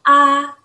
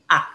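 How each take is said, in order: First: The pitch stays high and level. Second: The pitch falls low, then rises again. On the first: "nada tinggi datar seperti ini" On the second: "nada tiga turun, naik"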